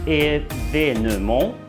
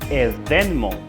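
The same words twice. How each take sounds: First: The second vowel E is clearly pronounced. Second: The second vowel E is silent. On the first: "Si vous prononcez ce E comme E" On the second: "Si vous gardez ce E muet"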